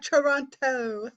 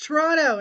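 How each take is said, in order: First: The second T is clearly pronounced. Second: The second T is silent. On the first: The speaker is not from Toronto. The speaker calls it wrong. "not Toronto" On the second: The speaker is from Toronto. The speaker calls it right. "you don't pronounce that second uh that second T"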